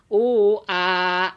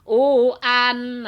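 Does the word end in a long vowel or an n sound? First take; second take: long vowel; n sound. First: The word ends with a vowel held two beats. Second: The word ends with a clear n sound. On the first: The reading stops at this word. "kalau di wakop di sini jadi u a dua harkat" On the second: The reading continues into the next word. "kalau disambung"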